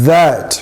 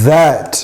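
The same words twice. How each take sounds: Both takes have the same delivery.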